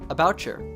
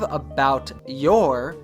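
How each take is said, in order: First: The T and Y merge into a ch sound. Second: The T and Y sounds stay separate. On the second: "instead of about your"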